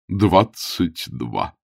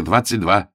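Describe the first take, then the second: First: "двадцать два" drawn out very slowly, stress on "двадцать"; slow emphatic agreement. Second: Said in the usual way. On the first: A narrator's reading. Bishop agreeing with Augustine about the heat, slow and weighty.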